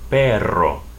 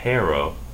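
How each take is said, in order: First: The middle r is a long rolled trill. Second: The middle r is a single quick tap. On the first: The speaker calls it right. "but perro" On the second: The speaker calls it wrong. "not perro"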